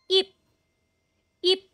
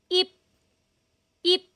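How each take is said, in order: No difference in how they are said.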